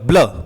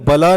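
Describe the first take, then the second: First: The b and l are joined quickly together. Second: A vowel separates the b and the l. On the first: The speaker calls it right. "ये आधा ब है, ये तेजी से बोला जाएगा" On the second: The speaker calls it wrong. "ये बला नहीं है"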